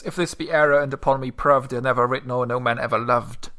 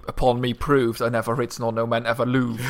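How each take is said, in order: First: Said in the usual way. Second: "louved" said like "loove", rhyming with "proved"; loved rhymed with proved. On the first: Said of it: "Either that". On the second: Shown as a demonstration. Co-host tries the reverse rhyme, "louved" said as "loove" with a laugh. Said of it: "you say".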